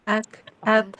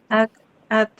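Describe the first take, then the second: Both takes have the same delivery.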